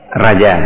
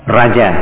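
Both takes have the same delivery.

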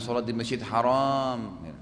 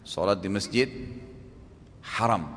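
First: The last word has a long second vowel. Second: The last word has a short second vowel. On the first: It means the forbidden mosque. The speaker calls it wrong. "Jangan bilang sholat di masjid haram, salah artinya" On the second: It means the honored mosque. The speaker calls it right. "Berarti saya baru sholat di masjid yang dimuliakan"

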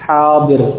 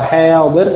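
First: The long vowel is an open 'a' sound. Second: The long vowel is tilted toward an 'e' sound. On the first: The speaker calls it right. "Harus fathah" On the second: The speaker calls it wrong. "Tidak boleh satih atau hadir"

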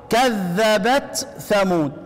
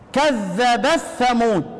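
First: The t is pronounced clearly before the th. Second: The t merges into the following th. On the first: "عشان تقرأ بالإظهار" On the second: "بيقرأ بالإيه بالإدغام"

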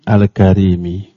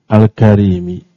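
No difference in how they are said.

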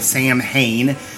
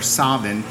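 First: It is said the way English speakers say it. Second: It is said with the Scottish pronunciation. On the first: The speaker calls it wrong. "You English speakers will say Samhain, mispronouncing it" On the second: The speaker calls it right. "or Scottish"

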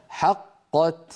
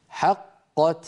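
The two takes are said the same way.

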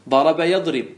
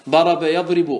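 No difference in how they are said.

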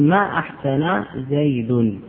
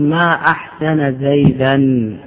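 First: The last word ends with an -un sound. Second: The last word ends with an -an sound. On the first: It denies that Zayd did well. "فإذا أردت النفي تقول ما أحسن زيد، ما أحسن بفتح النون وزيد فاعل" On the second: It expresses amazement at how good Zayd is. "وإذا أردت التعجب تقول ما أحسن زيدا"

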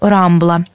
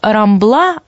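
First: The stress is on the first syllable. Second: The stress is on the last syllable. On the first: This is the Spanish way of saying it. "а не" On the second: This is the local Catalan way of saying it. "каталонцы обычно ударение делают на последнем слоге"

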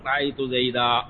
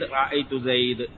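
First: The final word ends with a long a vowel. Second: The final word ends on a bare consonant. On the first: This is the pausal form of most speakers. "وإذا كان بعد فتح يقلبونها ألفا" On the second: This is the pausal form of one regional dialect. "لأن الربيعة يقفون على المنون بترك التنوين"

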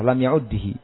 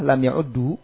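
First: The doubled d is followed by an i vowel. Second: The doubled d is followed by a u vowel. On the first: "dengan kasrah" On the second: "dengan dhammah"

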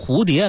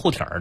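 First: It is said in standard Mandarin pronunciation. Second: It is said in Beijing dialect pronunciation. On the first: "那就是普通话" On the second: "那就是北京方言"

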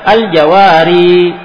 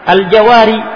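First: The final vowel is drawn out long. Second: The final vowel is cut short. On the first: "Tidak perlu lagi dipanjangkan. Tidak perlu lagi dibaca" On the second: "Diringankan dengan dibuang ya-nya sehingga cukup dibaca"

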